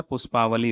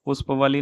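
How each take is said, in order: First: Said in the usual way. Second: पुष्पवली with short "a" before v; short middle vowel. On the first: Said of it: "होता है". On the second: Shown as a demonstration. Teacher showing the mistake, पुष्पवली with short middle vowel. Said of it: "नहीं होता है".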